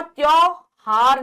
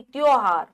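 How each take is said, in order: First: त्योहार as 'tyau-haar', louder; wrong au. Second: त्योहार as 'tyo-haar'; pure o in the first syllable of त्योहार; o sound. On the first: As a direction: say त्योहार loudly with a wide au. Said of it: "औ नहीं". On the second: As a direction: say त्योहार with a round o. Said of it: "ओ आएगा". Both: Shown as a demonstration.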